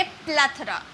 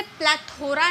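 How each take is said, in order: First: प्लेथोरा squeezed to "PLATH-ra", no "o"; correct pronunciation. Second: प्लेथोरा with a full "tho" in the middle; wrong pronunciation. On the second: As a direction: mispronounce प्लेथोरा as "pla-THO-ra". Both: Shown as a demonstration. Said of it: "इसे प्लेथोरा नहीं बोलेंगे".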